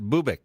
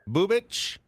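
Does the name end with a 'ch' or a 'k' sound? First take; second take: k; ch. First: The name ends with a 'k' sound. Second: The name ends with a 'ch' sound. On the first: "Or is it Bubik?"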